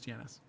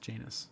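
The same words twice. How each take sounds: First: The name is said the non-English way. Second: The name is said the English way. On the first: This is how the brand itself says it. "but yes, it is Janus" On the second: This is how it is said in England. "The English pronunciation is Janus"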